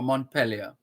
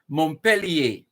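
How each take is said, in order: First: The name is said with English pronunciation. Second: The name is said with French pronunciation. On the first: "if you anglicize it" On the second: "if you're doing it the French way"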